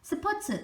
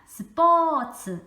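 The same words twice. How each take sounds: First: The p is plain and the vowel short. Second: The p is tense and the vowel long. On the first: The speaker calls it wrong. "스포츠 이렇게 하는 게 아니라" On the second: The speaker calls it right. "스포츠 이렇게 발음을 한다"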